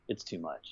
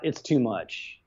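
First: Much softer, fading echo; trailing off softly. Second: Said in the usual way. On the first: Real, not acted. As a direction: let the repeat die away under your breath. Repeats the phrase, fading away.

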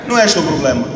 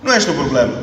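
The two takes are said the same way.

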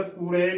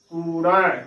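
First: ਕੂੜੇ ending in narrow ay; closed E ending. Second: ਕੂੜਾ with last vowel as open ai; open AI ending. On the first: Teacher showing the misreading, ਕੂੜੇ with closed e. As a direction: finish ਕੂੜੇ on closed e, not open ai. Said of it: "ਨਾ ਕਿ ਇਸ ਦਾ ਉਚਾਰਨ". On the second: Teacher modelling correct reading, ਕੂੜਾ ending in ai. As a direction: finish ਕੂੜਾ on wide ai, not closed e. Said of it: "ਦੁਲਾਵਾਂ ਦੇ ਨਾਲ ਹੀ ਉਚਾਰਨ". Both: Shown as a demonstration.

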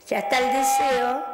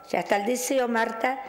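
First: Announcing the wish. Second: Said in the usual way. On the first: Shown as a demonstration. Psychic showing the caller what to say, brightly. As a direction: call out the wish is done, a little louder. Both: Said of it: "me decís".

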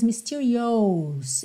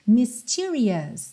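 First: "mysterious" ending wrongly in "ohs". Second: "mysterious" ending in a short uh-s; reduced ending. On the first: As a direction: say "mysterious" as mis-tee-ree-OHS, mistakenly. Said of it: "não se diz". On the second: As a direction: say "mysterious" as mis-TEE-ree-us. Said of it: "o som que você vai fazer é A". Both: Shown as a demonstration.

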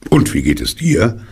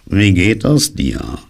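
First: Quicker, higher return greeting; friendly Pooh. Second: Slow, drawn-out dismal donkey; higher-pitched, mournfully slow greeting; gloomy greeting. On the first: Acted. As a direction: toss the question back brightly. Pooh returns the donkey's greeting brightly. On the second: A narrator's reading. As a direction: stretch it out in a dreary way. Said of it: "in düsterer Weise".

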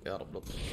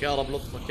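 First: Whispered prayer under the breath; nervous whispered يا رب لطفك; whispered plea. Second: Said in the usual way. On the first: Real, not acted. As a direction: breathe it out barely voiced, pleading. Tense moment in game, repeated plea.

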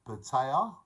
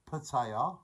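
Both takes have the same delivery.

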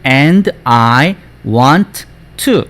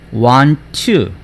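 First: "and I want to" word by word, both t's sounded; wrong separated reading. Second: "want to" run together with one t; linked want to. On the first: Teacher shows what not to do, "and I want to" unlinked. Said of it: "이렇게 하는 게 아닙니다". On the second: Teacher models it for students, "want to" linked. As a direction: slide from "want" straight into "to" on a shared t. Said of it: "해볼게요, 선생님이". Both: Shown as a demonstration.

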